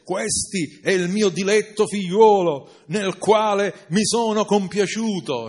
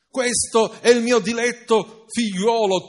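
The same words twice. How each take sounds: First: Said in the usual way. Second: God's voice, higher and louder, booming; a booming heavenly father; thundering voice from above. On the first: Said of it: "dice al verso diciassette". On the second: Acted. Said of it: "tuonò la voce dall'alto".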